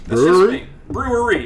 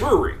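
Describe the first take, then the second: First: The word is said with every syllable clearly enunciated. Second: The word is clipped, with syllables run together. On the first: This is how it should be pronounced. The speaker calls it right. "Brewery is how it should be pronounced" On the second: This is how most people say it. The speaker calls it wrong. "they say brewery"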